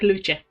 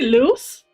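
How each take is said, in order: First: The name is said with an Italian pronunciation. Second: The name is said without an Italian pronunciation. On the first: The speaker calls it wrong. "I pronounced it in, in the Italian way" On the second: The speaker calls it right. "it's supposed to lose"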